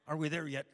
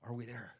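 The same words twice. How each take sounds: First: Put-on loud, impatient kid-style whine. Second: Said in the usual way. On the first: Shown as a demonstration. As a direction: belt it out like a kid in the back seat. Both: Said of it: "Like the movie says".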